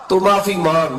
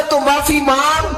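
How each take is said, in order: First: Said in the usual way. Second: تو معافی مانگ called out much higher, over music; high ringing command; raised divine call. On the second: Acted. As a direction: proclaim the Lord's command, pitched high. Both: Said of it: "رب کہتا ہے".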